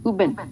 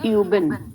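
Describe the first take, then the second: First: The vowel is a plain back u sound. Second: The vowel is fronted, with an e-like onset. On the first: "without उमलाउट तो आप इसको उबन पढ़ते" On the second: "उमलाउट है तो आप इसको पढ़ेंगे यूबन"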